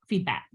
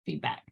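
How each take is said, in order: First: Said in the usual way. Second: Softer, chuckling echo of feedback; quiet laughing repeat. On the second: Shown as a demonstration. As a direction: repeat feedback under your breath with a laugh.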